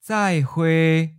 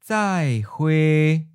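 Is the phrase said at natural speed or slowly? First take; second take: natural; slow. First: It is said at a natural, quick pace. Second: It is said slowly and carefully. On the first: "Once natural speed" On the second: "and then slow"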